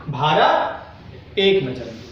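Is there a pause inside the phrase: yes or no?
yes. There is a short pause inside the phrase. The speaker calls it right. "थोड़ा रुकाव होना चाहिए"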